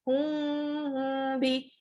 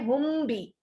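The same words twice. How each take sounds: First: The m is hidden with a long nasal hum. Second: The m is fully closed without a held nasal hum. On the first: The speaker calls it right. "No, hum be" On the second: The speaker calls it wrong. "Don't say hum be"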